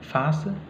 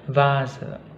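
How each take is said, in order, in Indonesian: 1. Kata ini diawali bunyi F tak bersuara. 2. Kata ini diawali bunyi V bersuara. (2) "Nah itu V ya"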